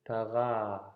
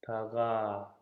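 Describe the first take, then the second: First: The middle consonant is a softened g. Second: The middle consonant is a softened g.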